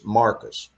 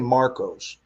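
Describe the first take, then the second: First: The name is said the local Texan way. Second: The name is said the outsider way. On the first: The speaker calls it right. "it's Marcus" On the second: The speaker calls it wrong. "we don't say Marcos"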